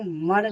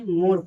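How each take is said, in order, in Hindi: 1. स्वर छोटे 'uh' जैसा है। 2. स्वर लंबे 'oh' जैसा है। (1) "नहीं" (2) "मोर पढ़ेंगे"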